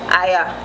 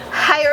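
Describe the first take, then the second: First: It is said in a Jamaican Patois accent. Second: It is said in a standard English accent. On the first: "in Patois" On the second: "in English"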